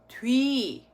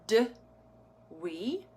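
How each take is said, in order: First: The two vowel sounds blend quickly together. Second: The two vowel sounds are pulled apart. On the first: The speaker calls it right. "we just need to say it a little bit faster" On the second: The speaker calls it wrong. "So not d wee"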